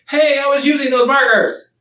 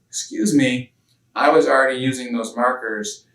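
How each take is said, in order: First: It is said in an upset voice. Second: It is said in a calm voice.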